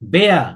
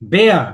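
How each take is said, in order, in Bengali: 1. স্বরধ্বনিটি 'eh'-এর মতো শোনায়। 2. স্বরধ্বনিটি 'eh'-এর মতো শোনায়।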